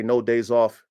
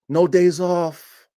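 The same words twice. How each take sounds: First: Said in the usual way. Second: "No days off" slowed right down and louder, each word hit; slow insistent repeat. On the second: Real, not acted. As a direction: drive home "No days off" word by word.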